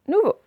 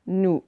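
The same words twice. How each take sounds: First: Said in the usual way. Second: "Nouveau" split in two with a gap; syllable by syllable. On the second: Shown as a demonstration. Teacher modelling a word for pupils, syllable by syllable. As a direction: pause between the syllables of "Nouveau".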